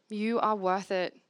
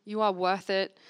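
The two takes are said the same way.

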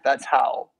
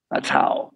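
First: Said in the usual way. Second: Whispered under the breath. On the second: Shown as a demonstration. Preacher repeats his answer in a whisper. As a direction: breathe it as an aside.

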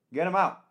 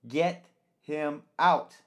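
First: Sharp high angry order; angry demand. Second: Drawn out, much slower, high and pointed; slow angry demand. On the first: Host to the staff, quick high angry demand. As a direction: snap it fast, much higher. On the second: Host repeating the order to the staff, slow and pointed. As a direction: stretch each word out in anger. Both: Acted.

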